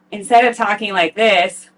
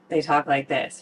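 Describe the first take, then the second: First: Open-throated demo. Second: Nasal demo. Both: Shown as a demonstration.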